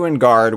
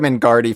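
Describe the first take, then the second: First: The name ends without an extra vowel syllable. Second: The name ends with an extra vowel syllable. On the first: The speaker calls it right. "the correct pronunciation" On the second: The speaker calls it wrong. "I called him Ingardi for like the first year"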